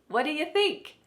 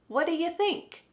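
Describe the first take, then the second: Both takes have the same delivery.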